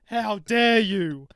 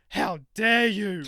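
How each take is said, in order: First: Even louder and slower repeat of the outrage; indignant outrage. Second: Loud, slow, drawn-out mock outrage; hammed-up offended lady, stretching every word; indignant outrage. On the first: Retold or imitated. Shop worker replaying the customer's outburst, louder and slower. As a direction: lean harder into the offended lady. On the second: Older customer snapping at the shop worker, loud and drawn out. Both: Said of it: "and she goes".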